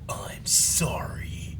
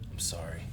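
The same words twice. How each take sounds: First: It is said in an angry voice. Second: It is said in a calm voice.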